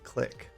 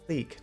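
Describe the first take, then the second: First: The vowel is short, like in 'sick'. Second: The vowel is long, like in 'seek'. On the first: The speaker calls it wrong. "not click" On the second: The speaker calls it right. "it would be like K L E E K"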